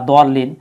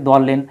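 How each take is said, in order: Both takes have the same delivery.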